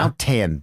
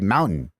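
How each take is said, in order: First: The middle T sound is clearly pronounced. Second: The middle T sound is dropped. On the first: This is how people in Utah do not say it. "We don't say" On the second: This is how people in Utah say it. "In Utah, we say mountain"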